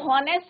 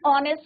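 First: The word begins with an h sound. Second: The word begins with a vowel sound. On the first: The speaker calls it wrong. "हॉनेस्ट नहीं होता बच्चों" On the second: The speaker calls it right. "एच silent रहता है"

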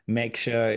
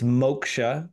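First: The first vowel is not an 'oh' sound. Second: The first vowel is an 'oh' sound. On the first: The speaker calls it wrong. "don't feel wrong about saying moksha or meksha" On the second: The speaker calls it right. "It's moksha, right? Like yoke, moke"

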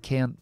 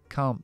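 First: It is said with an American accent. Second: It is said with a British accent. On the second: "Británicos"

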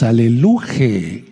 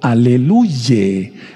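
First: The word ends with the syllable 'je'. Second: The word ends with the syllable 'ye'. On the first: "No decimos Aleluje o Aleluye" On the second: "No decimos Aleluje o Aleluye"

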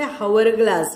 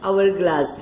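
First: The word begins with an audible h sound. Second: The word begins with a vowel, no h. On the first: The speaker calls it wrong. "here we don't say hourglass" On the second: The speaker calls it right. "it is hourglass"

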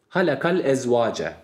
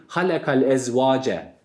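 The two takes are said the same way.

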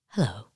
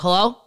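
First: It sounds calm and unhurried. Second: It sounds frantic and impatient.

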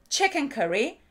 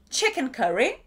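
No difference in how they are said.

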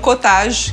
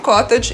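First: The word is said with a French pronunciation. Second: The word is said with an English pronunciation. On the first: The speaker calls it wrong. "que seria a pronúncia francesa" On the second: The speaker calls it right. "esse queijo também é de origem inglesa, então por isso que eu falo cottage"

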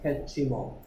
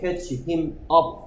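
First: The words are joined into one linked chunk. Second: Each word is said separately and distinctly. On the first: "붙어서 들려요" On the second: "이러면 발음하기 힘듭니다"

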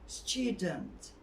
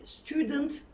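First: The t sounds like a light ch. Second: The t sounds like a plain t. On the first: The speaker calls it right. "Hafif ç sesi" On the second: The speaker calls it wrong. "değil"

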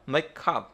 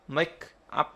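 First: The final consonant links into the next vowel. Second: The two words are said separately. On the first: The speaker calls it right. "mà mà make up. Đấy, đọc như vậy nó hay hơn" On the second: The speaker calls it wrong. "Không bao giờ đọc là make up"

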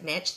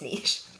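First: The word is pronounced the American way. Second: The word is pronounced the non-American way. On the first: The speaker calls it wrong. "if you're American, you pronounce it niche, that's wrong" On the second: The speaker calls it right. "It's niche"

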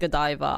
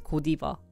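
First: The name is said the English way. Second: The name is said the Korean way. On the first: The speaker calls it right. "I didn't know that Godiva was pronounced Godiva" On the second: The speaker calls it wrong. "in Korea, they pronounce it as Godiva"

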